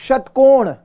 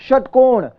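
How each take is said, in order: The two takes are said the same way.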